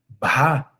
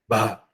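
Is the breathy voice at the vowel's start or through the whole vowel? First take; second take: start; whole vowel. First: Breathiness follows the consonant, then the vowel turns clear. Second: The whole vowel is said with a breathy voice. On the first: "em vez de um ba" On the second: "A vogal fica murmurada"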